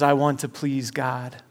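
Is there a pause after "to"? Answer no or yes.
no. It flows without a pause after "to".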